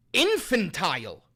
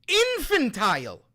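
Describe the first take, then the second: First: Said in the usual way. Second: INFANTILE thrown out high and loud; loud, indignant "Infantile"; exasperated exclamation. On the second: Real, not acted. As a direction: exclaim "Infantile" with raised pitch and force. Repeats the word in outrage.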